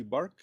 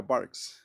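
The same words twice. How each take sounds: First: Bark, a short Spanish-style bark, no final s; bark like barco. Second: Barks, with a clear s hissed on the end. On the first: Teacher repeating bark for the class without the s. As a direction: give bark plainly like barco. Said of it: "Así". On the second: Teacher adding the s because the subject is it. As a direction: land the s of barks. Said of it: "pero con S". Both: Shown as a demonstration.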